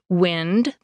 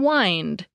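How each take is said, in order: First: The vowel is short, rhyming with 'pinned'. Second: The vowel is long, rhyming with 'find'. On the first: It means the movement of air. "the movement of air" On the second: It means to coil something around an object. "to coil something like a string around another object"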